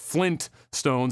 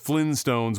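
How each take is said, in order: First: The word is said with a T sound. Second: The word is said without a T sound. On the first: The speaker calls it right. "The actual family name is Flintstones, as in Flint is in the rock" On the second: The speaker calls it wrong. "pronounced it and spelled it as Flintstones with no T"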